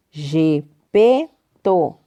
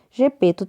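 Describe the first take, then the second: First: "Gepeto" broken into three slow beats; syllable by syllable. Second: Said in the usual way. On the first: Shown as a demonstration. Teacher having pupils count syllables, "Gepeto" said in separate beats. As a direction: pause between the syllables of "Gepeto". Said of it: "quantas sílabas?". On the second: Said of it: "Gepeto tem três sílabas".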